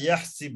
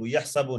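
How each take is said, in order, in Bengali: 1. শেষ অক্ষরের আগের স্বরধ্বনি 'i'। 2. শেষ অক্ষরের আগের স্বরধ্বনি 'a'। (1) "হাসিবা ইয়াহসিবু হবে" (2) "ইয়াহসাবু না"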